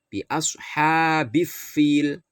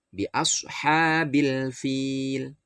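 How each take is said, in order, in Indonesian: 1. Bunyi L melebur menjadi F ganda. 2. Bunyi L dibaca jelas sebelum F. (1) "tidak boleh dibaca bi ashabif fil. Bif salah" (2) "bukan bif tapi bil"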